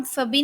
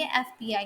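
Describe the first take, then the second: First: "फ़बी" run together as one word, fuh-bee; wrongly read as word. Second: "एफ़बीआई" as three letter names, eff-bee-eye; correctly spelled out. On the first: Teacher showing students what not to say, read as one word. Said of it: "as a word pronoun-, pronounce नहीं करते". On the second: Teacher correcting the one-word reading for students, letter by letter. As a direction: pronounce each letter of "एफ़बीआई" on its own. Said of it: "letters को अलग-अलग pronounce करेंगे". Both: Shown as a demonstration.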